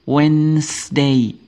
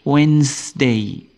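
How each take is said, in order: No difference in how they are said.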